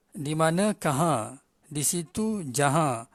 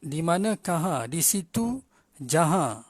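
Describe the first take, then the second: No difference in how they are said.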